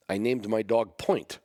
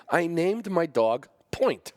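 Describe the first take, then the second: First: Said in the usual way. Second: Higher, slow, amused exaggeration; mock disbelief. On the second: Shown as a demonstration. Owner mocking his own choice of dog name, slow and high. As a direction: stretch it out in comic disbelief. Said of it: "That's a terrible name".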